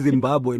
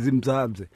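First: The second syllable starts with a b sound. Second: The second syllable starts with a z sound. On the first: The speaker calls it right. "It's Zimbabwe" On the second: The speaker calls it wrong. "nina nithi zimzabze"

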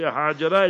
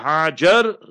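First: The name ends on a vowel, full ending kept. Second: The name ends on a consonant, final vowel dropped. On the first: "you say Hajara is also fine" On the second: "that is known as Tarkhim. So remember Hajar"

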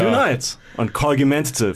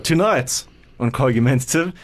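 First: It is said with more gusto and energy. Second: It is said with moderate, restrained energy. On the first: The speaker calls it right. "you got to say it with a bit more gusto" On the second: The speaker calls it wrong. "You sound like Jeremy Clarkson"

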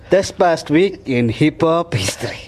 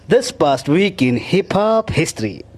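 First: It is said flatly, with little conviction. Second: It is said forcefully, with more conviction. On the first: "I will never feel it" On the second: "Say it again with more conviction"

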